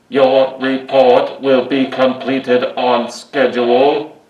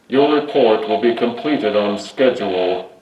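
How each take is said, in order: First: It is said in a put-on Dalek voice. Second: It is said in the speaker's natural voice.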